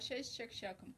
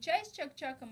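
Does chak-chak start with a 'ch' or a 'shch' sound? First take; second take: shch; ch. First: Chak-chak starts with a soft 'shch' sound. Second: Chak-chak starts with a hard 'ch' sound. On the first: This is how Tatars say it. "ще произносят они" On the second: This is the standard Russian way of saying it. "не чай с чак-чаком"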